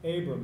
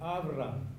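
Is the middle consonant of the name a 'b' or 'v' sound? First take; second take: b; v. First: The name is said with a 'b' sound. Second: The name is said with a 'v' sound. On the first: This is the English form of the name. "as we would pronounce it in English" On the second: This is the original form of the name. "his name was Avram"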